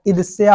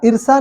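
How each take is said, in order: First: ईर्ष्या with a y glide, 'irsiya'; correct pronunciation. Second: ईर्षा ending in plain 'sa', no y; wrong pronunciation. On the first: Teacher giving the right word, ending in 'ya'. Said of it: "ईर्ष्या होता है". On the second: Teacher rejecting the faulty word, said without the y. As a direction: drop the y from ईर्षा. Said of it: "ईर्षा नहीं होता है". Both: Shown as a demonstration.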